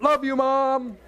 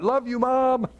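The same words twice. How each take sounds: First: Higher, put-on athlete voice thanking mom; hammed-up sincere thanks, shirt pulled up; athlete's heartfelt shoutout. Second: A touch of a star athlete thanking mom; lightly voiced, higher heartfelt thanks to the camera; mock athlete shoutout. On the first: Pastor imitating a player pulling his shirt for mom, hammed-up higher voice. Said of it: "Or they pull their shirt". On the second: Pastor imitating a star athlete thanking mom on camera, lightly voiced. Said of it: "No, they go, what?".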